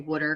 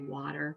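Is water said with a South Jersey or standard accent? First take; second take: South Jersey; standard. First: Water is said in a South Jersey accent. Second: Water is said in a standard accent.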